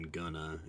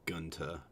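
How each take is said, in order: First: It is reduced to 'gonna'. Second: It is reduced to 'gunta' with a t. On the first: This is the common casual form. "or even gonna" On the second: This marks the regional valley accent. "it's gunta"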